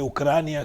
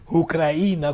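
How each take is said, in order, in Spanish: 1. El acento cae en la sílaba cra. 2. El acento cae en la sílaba i. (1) "que es en la última, en la última sílaba como es en español" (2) "con acento en la I"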